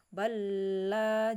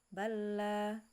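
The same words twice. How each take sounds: First: The stressed sound is held for a long time. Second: The stressed sound is held only briefly. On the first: The speaker calls it wrong. "jangan lama-lama ya. Jangan bala" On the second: The speaker calls it right. "satu harokat aja"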